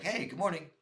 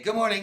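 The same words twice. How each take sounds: First: Said in the usual way. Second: Louder, higher good morning; loud greeting. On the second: Retold or imitated. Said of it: "I, I accidentally say".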